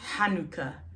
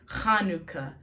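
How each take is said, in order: First: It begins with a deep h from the throat. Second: It begins with a scraped kh from the back of the mouth. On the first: The speaker calls it right. "It's the het, not a chaf" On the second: The speaker calls it wrong. "A lot of people say Hanukkah, Hanukkah. That's not how you say it"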